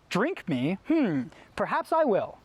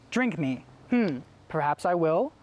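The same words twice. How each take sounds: First: It is said with lively, varied expression. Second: It is said flat, with little expression. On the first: The speaker calls it wrong. "instead of memorizing the line like" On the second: The speaker calls it right. "You would just memorize it like, ... It sounds kind of boring"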